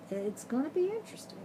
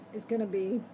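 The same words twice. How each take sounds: First: Wry, higher and softer after a sigh. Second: Said in the usual way. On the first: Real, not acted. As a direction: say it with a resigned sigh.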